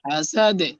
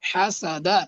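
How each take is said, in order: First: The word ends on a bounced, echoing d. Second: The word ends on an open a vowel. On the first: The reader stops on this word. "থামলে কি হবে? ... সাকিন হলে একটা ধাক্কা হয়" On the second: The reading continues without stopping. "দাল জবর দা"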